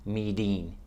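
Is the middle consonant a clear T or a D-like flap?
flap. The middle consonant is a soft D-like flap. This is the American way of saying it. "in America, we say meeting"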